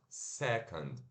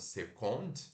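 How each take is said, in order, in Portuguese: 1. A segunda vogal é um schwa reduzido. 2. A segunda vogal é um som de 'o' pleno. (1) "E schwa N D" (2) "como second"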